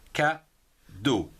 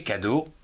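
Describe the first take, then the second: First: "cadeau" split into ca and deau; slow "cadeau", a clear pause between the two syllables. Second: Said in the usual way. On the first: Shown as a demonstration. Teacher counts two syllables for pupils, "cadeau" broken in two. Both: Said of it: "deux syllabes".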